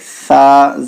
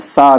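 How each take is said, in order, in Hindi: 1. पहला व्यंजन एक मुलायम 'th' ध्वनि है। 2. पहला व्यंजन एक सादी, फुफकारती हुई 's' है। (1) "बल्कि सा" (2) "सा नहीं"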